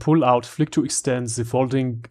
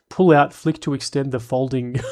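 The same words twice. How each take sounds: First: It is read in a put-on German accent. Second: It is read in the speaker's normal accent.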